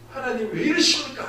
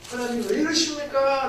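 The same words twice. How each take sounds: First: Louder, higher cry of frustration at God; retold angry outcry. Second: Louder, higher protest to God; retold pained outcry. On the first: Sick pastor crying out to God in anger, louder and higher. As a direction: protest to God in pain, raised voice. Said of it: "화가 나는 거예요". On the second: Pastor in malaria pain crying out to God, louder and higher. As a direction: cry out to God from sickness, raised voice. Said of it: "제가 생으로 그렇게 아파 있는데".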